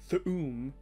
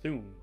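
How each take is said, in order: First: The stress falls heavily on the 'oom' part. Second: The word has no extra stress on 'oom'. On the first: The speaker calls it wrong. "It's not Thu'um" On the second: The speaker calls it right. "it's just Thu'um"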